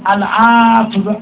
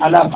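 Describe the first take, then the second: First: The word is said in its full form. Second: The word is clipped into a short slurred form. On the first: "آخه من 300 بار باید بگم العفو" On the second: "نمیشه حالا یه جوری راحت ترش کنیم"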